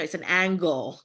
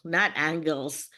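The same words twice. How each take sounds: First: Angle with no final s, said clearly; it's an angle, said as the right version; correct form. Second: Angles with the s, drawn out slowly as the mistake; not angles, slowed down to mark the mistake; wrong form, slowly. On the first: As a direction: stress that it is one angle, not angles. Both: Shown as a demonstration.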